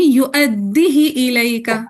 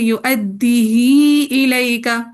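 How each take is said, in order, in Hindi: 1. h के बाद का स्वर छोटा है। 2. h के बाद का स्वर लंबा किया जाता है। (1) "अदम सिला के साथ पढ़ेंगे" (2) "सिला करके पढ़ेंगे"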